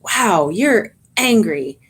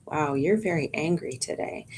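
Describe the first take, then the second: First: Slower, emphatic mirroring; energised, engaged reflection; extra energy. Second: Very calm tone. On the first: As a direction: lean into it, matching their heat a little. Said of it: "putting extra energy into that". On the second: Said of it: "That is a very calm tone of voice". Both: Shown as a demonstration.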